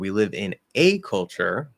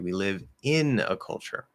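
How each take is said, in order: First: The word "a" carries the main stress. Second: The word "in" carries the main stress. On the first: It is one culture, not two. "but we don't live in two cultures" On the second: It is in a culture, not at one. "as opposed to something else. Maybe you make a mistake saying we live at a culture"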